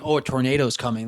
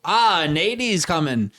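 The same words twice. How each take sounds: First: Said in the usual way. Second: Slow, drawn-out mock Australian; Australian accent. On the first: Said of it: "instead of saying". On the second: Shown as a demonstration. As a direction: imitate a laid-back Aussie shortening words. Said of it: "I've noticed the Australians never say".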